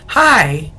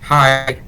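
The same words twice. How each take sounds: First: It is said lively, with warm feeling. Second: It is said flat, with no feeling.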